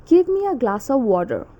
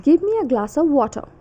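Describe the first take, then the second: First: Attempted American accent, "water" ending in a full r; American rhotic "water". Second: Attempted British accent, higher pitch, r dropped from "water"; British r-less "water". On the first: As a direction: request it American-style, sounding the r in "water". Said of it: "And in American accent". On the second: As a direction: request it British-style, "water" ending in uh. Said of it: "So in British accent". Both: Shown as a demonstration.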